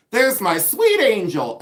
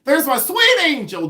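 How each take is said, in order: First: Higher, drawn-out friend's greeting screech; mock screech. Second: Very high, loud screeched greeting; Pamela Blanchard. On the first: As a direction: imitate her screechy, slow greeting. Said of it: "she screeches and she goes". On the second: Retold or imitated. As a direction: screech it way up high, imitating a delighted friend. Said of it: "I think I can do it".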